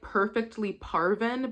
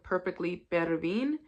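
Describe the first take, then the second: First: The name's first syllable sounds like 'par'. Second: The name's first syllable sounds like 'per'. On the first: This is how the spelling looks. The speaker calls it wrong. "It reads like" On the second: This is how the name is actually said. The speaker calls it right. "but it's called like"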